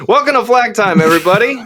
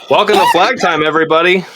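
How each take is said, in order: First: Upbeat show host intro; podcast intro, take two. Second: Podcast intro. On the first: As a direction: welcome them in bigger, higher. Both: Shown as a demonstration. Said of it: "can you do it without coughing".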